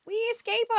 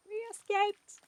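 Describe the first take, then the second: First: High, loud triumphant cheer; excited cheer. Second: High triumphant cheer. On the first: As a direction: cheer the escape. Celebrating the escape. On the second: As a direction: cheer it out again. Repeats cheer. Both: Real, not acted.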